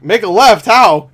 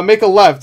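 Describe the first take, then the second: First: Loud, higher, incredulous echo; baffled question. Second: Said in the usual way. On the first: Retold or imitated. Tom Cruise questioning Benji's impossible directions, baffled question. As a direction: throw the order back as a question. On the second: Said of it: "Benji's telling him how to get there".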